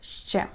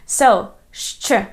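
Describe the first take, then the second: First: It is a plain sh with no ch. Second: It is sh followed by a ch sound. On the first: This is the local steppe dialect pronunciation. "I pronounce this letter like this" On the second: This is the standard pronunciation taught to students. "combination of two Ukrainian consonants, sha and che"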